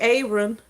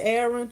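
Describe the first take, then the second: First: The name is said with a Southern pronunciation. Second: The name is said with a general pronunciation. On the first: This is how people in the South say it. "I'm from the south, so we we would call that Aaron" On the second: This is how most people say it. "most people pronounce it Aaron"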